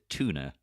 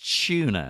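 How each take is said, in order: First: It is said with an American pronunciation. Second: It is said with a British pronunciation. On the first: "I know Americans pronounce it tuna" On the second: "But in England it's tuna"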